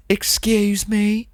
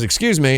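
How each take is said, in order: First: High, slow, hammed-up Midwestern accent; exaggerated Midwestern accent. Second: Said in the usual way. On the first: Tourist girl getting a stranger's attention, hammed-up high Midwestern accent. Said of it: "She didn't say it like that". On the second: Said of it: "She had, like, a normal voice".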